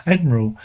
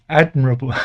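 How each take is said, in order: First: "Admiral" said right, AD-mi-ral, with a little laugh; correcting to "Admiral" with a falling tone; corrected word. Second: "Admirable" said by mistake, stressed AD-mi-ra-ble; slipping into "Admirable" instead of Admiral; wrong word slip. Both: Real, not acted. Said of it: "I keep saying Admirable instead of Admiral".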